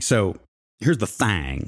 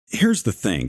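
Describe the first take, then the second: First: The last word is said with a drawled 'thang' vowel. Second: The last word is said with a standard 'thing' vowel.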